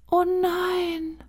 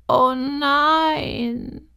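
First: A tiny horse gasping in dismay. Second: The tiny horse groans out its dismay. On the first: Unseen horse speaks in dismay. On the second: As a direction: fuller high oh nein falling down. Unseen horse repeats in dismay. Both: A narrator's reading.

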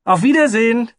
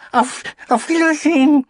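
First: Very high, loud farewell shout; calling out. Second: Very high, loud crowd farewell; calling out. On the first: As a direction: shout goodbye out the window. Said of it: "und rief". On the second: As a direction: shout goodbye back together. Crowd calls back. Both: Acted.

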